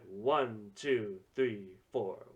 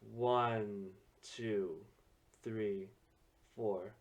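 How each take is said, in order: First: It is counted with upbeat energy. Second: It is counted softly and smoothly.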